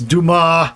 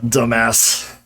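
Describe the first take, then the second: First: The name ends in a vowel, s silent. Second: The name ends with a pronounced s sound. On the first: The speaker calls it right. "Yes, Dumas" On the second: The speaker calls it wrong. "not dumbass"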